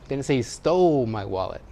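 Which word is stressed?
stole. The word 'stole' carries the main stress. The wallet was obtained without stealing. "He borrowed it. He found it"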